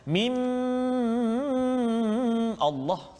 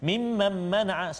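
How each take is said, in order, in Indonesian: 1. Bunyi dengungnya ditahan terlalu lama. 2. Bunyi dengungnya dipotong sangat pendek. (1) "lama sangat" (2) "baca laju, ... salah"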